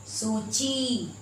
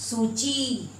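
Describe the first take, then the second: The two takes are said the same way.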